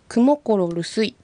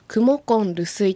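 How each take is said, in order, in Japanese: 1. 「rusuy」の前は r の音です。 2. 「rusuy」の前は n の音です。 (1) "クモコロルスイと発音するよりは" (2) "クモコンルスイと発音した方がよりアイヌ語らしい発音"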